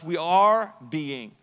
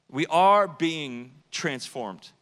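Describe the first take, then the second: First: "are" drawn out slow and loud; slow stress on are. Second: "are" stretched, slow and loud; slow stress on are. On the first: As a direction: lean on "are", slowly. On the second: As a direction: hit "are" hard and slow. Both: Shown as a demonstration.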